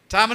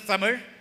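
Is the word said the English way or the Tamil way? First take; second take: English; Tamil. First: It is said the English way, as written. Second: It is said the native Tamil way. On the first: "In English, it is written as Tamil" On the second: "is pronounced as Tamil"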